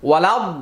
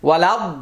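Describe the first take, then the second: No difference in how they are said.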